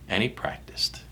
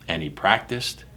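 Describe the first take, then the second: First: Last echo in a whisper; whispered repeat. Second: Dropping softer on the repeat; second echo, easing off. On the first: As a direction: trail off into a whisper. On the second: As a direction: let it fade a little. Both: Acted. Repeated fading refrain.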